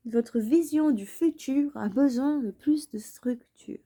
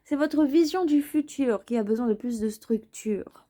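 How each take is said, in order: First: Whispered repeat of the line. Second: Said in the usual way. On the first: Shown as a demonstration. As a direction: breathe it out like a secret. (en chuchotant)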